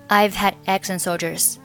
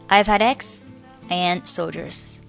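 First: The final d of had is dropped, nothing linked. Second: Had links to eggs, but and stands apart. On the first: "如果你要选择had 末尾的不发音，就是" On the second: "我选择这个had 和eggs 连读，我and 不和前面的x 连读"

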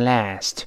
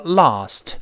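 First: The vowel is a front, 'a' as in cat. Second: The vowel is a back, 'ah/o'-like sound. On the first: "美音中啊变成哎，读成last" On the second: "英国人读成lost"

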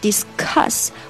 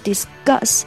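First: The consonant after 'dis' sounds like k. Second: The consonant after 'dis' sounds like g.

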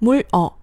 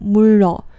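First: The syllables are split with a break between. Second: The final consonant links into the next syllable. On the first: The speaker calls it wrong. "如果你强行不连读的话……也就是물哦这个样子" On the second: The speaker calls it right. "你是很难不把它发成물로这个样子的"

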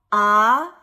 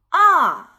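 First: The pitch rises from mid to high. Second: The pitch falls sharply from high to low. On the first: "3 到5 的阳平" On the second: "5 到1 的去声"

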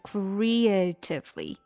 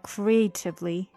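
First: A long e vowel is kept in the middle. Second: The middle vowel is squeezed and the syllables merge. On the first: The speaker calls it right. "就中间还有一个e 长音的e" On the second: The speaker calls it wrong. "如果读快了以后，这个creative 就会连起来，就变成creatively"

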